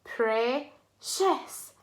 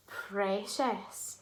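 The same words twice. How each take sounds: First: "Precious" in two parts with a pause; syllable by syllable. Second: "Precious" joined up, lower and softer; blended whole word. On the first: Teacher shows a two syllable word, "Precious" broken in two. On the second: Teacher rounds off the word for children, "Precious" blended, low and soft. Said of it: "Two syllable word". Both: Shown as a demonstration.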